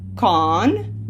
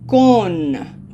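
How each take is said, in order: First: The vowel is open, like English. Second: The vowel is a closed O. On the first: The speaker calls it wrong. "This is not con" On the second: The speaker calls it right. "we're prepared to do a closed O"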